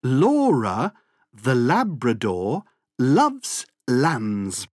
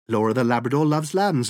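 First: The sentence is said at a slow pace. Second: The sentence is said at a very fast pace.

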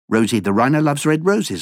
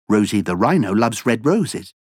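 First: It is spoken at a very fast pace. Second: It is spoken at a fast pace. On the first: "Encore plus vite" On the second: "plus vite"

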